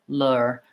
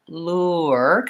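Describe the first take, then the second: First: The vowel is a single sound without a glide. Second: The vowel glides from one sound into a schwa. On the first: "And American English, they mark it as l, lure, lure, with just the uh sound" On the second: "in British English, we have lure, kind of more the way I was saying it, with the schwa sound and the vowel uh"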